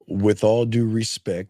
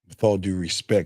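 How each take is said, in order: First: The voice is pitched higher than normal. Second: The voice is brought down to a lower pitch.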